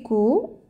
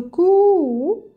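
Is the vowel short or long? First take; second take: short; long. First: The vowel is short. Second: The vowel is long. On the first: "Ça c'est ko" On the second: "pour allonger le son de ko"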